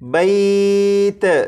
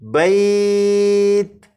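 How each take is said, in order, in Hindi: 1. आख़िरी 't' पर आवाज़ गूंजकर उछलती है। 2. आख़िरी 't' पर आवाज़ साफ़ तौर पर रुक जाती है। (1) "ता पर कलकला ना हो, यानी इस तरह से ना पढ़ा जाए" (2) "ता पर जब आप पहुंचे तो आवाज़ ख़त्म हो जाए"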